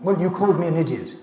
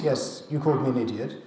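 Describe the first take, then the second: First: Louder, quicker accusation; accusing complaint. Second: Said in the usual way. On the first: Acted. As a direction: throw the complaint at them, a touch indignant. Acting out an accusing colleague.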